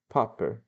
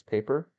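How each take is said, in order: First: "Paper" said as "PAH-per"; accented pronunciation. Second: Said in the usual way. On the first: Shown as a demonstration. Reader settling on Julio's foreign-accented "Paper", said "PAH-per". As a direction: give "Paper" a broad ah in the first syllable. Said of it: "Pa-, I guess paper?". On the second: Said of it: "I guess paper?".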